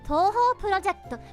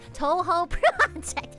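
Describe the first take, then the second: First: It is said with a Japanese pronunciation. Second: It is said with a strong American accent. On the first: The speaker calls it right. "there's a way to say it in Japanese" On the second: The speaker calls it wrong. "with the whitest, most American accent possible"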